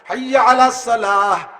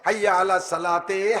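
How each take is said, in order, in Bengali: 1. শেষ শব্দটি মৃদু 'h' উচ্চারণে শেষ হয়। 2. শেষ শব্দটি 'teh' উচ্চারণে শেষ হয়।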